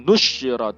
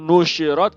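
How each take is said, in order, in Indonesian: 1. Konsonan 'sh' ditahan panjang dan dirangkap. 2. Konsonan 'sh' pendek dan tunggal. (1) "dan dibaca tasydid" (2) "dengan dibaca takhfif tanpa tasydid"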